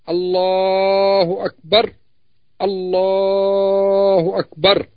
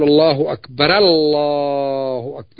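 First: Akbar stops on a silent r before the next word. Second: Akbar ends in ra, linking into the next word. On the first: The speaker calls it right. "ويقف عند آخر كل كلمة" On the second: The speaker calls it wrong. "يفتح الراء"

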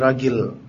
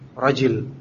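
First: The middle consonant is a hard g sound. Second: The middle consonant is a j sound.

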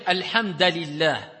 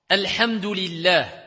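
First: The vowel after hamd is a. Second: The vowel after hamd is u.

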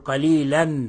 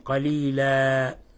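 First: The word ends with an 'an' sound. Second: The word ends with a long 'a' sound. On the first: The speaker calls it wrong. "لا نقول قليلا" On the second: The speaker calls it right. "نقف بغير تنوين قليلا"

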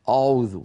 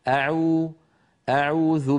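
First: The opening glottal stop sounds heavy and emphatic. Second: The opening glottal stop sounds light and plain. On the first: The speaker calls it wrong. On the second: The speaker calls it right.

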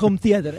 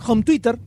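First: The second word sounds like 'theater'. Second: The second word sounds like 'twitter'. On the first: The speaker calls it right. "No en Home Theater" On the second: The speaker calls it wrong. "te decía que todas las películas estaban en Home Twitter"

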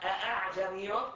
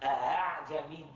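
First: The middle glottal stop is pronounced fully and strongly. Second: The middle glottal stop is softened toward a vowel. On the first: The speaker calls it wrong. "ما قلت أعجمي" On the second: The speaker calls it right. "هذا اسمه تسهيل بين بين"

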